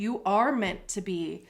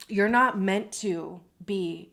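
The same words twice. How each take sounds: First: ARE stressed in full, uncontracted. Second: NOT punched in "You're not meant"; stress on NOT. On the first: Tarot reader encouraging the listener, stress on ARE. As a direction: hit the word are to counter a denial. Counters the preceding not meant. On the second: Tarot reader correcting the listener's path, stress on NOT. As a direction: lean firmly on the word not. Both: Real, not acted.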